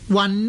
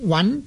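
First: The syllable is said in the departing tone. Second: The syllable is said in the rising tone. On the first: "温呢就是去声" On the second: "温就是上声"

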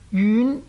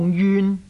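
First: The word is said in the rising tone. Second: The word is said in the departing tone. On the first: It is an adjective meaning far. "一个是上声" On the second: It is a verb meaning to keep away from. "一个是去声"

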